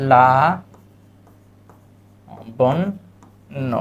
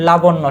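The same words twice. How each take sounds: First: "লা বন ন" with long pauses between syllables; syllable-by-syllable demo. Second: Said in the usual way. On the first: Shown as a demonstration. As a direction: dictate "লা বন ন" piece by piece, doubling the n. ("লা বন ন" থেমে থেমে ভেঙে বলা) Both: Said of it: "শব্দটা কি?".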